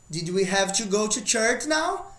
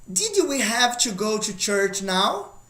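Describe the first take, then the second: First: Said in the usual way. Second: Slow, careful English question; slow model question. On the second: Shown as a demonstration. Teacher modelling a past question slowly. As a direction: read the example slowly for the class.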